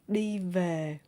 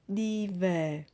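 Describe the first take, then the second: First: Northern accent, the v sounds like v. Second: The same.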